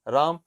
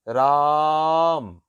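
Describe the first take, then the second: First: The vowel is held at normal length. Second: The vowel is drawn out very long. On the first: The word is simply said. "इसका उच्चारण करेंगे राम" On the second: Someone is being called out to. "यहां से यहां तक राम ... उसको प्लुत बोला जाता है"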